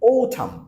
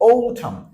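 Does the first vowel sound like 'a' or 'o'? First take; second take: o; o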